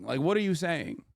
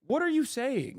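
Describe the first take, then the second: First: Said in the usual way. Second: High, disbelieving what are you saying; high incredulous question. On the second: Real, not acted. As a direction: pitch it up in disbelief. Exasperated rant at chat.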